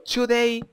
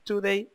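First: The word is pronounced in an exaggerated way. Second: The word is pronounced plainly and normally. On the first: "cuando digo today" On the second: "cuando es today"

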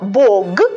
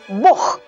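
First: The word ends in a voiced g sound. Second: The word ends in a voiceless h sound.

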